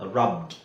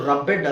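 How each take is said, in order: First: The ending is a plain d sound. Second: The ending is said as an extra syllable. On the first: The speaker calls it right. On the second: The speaker calls it wrong.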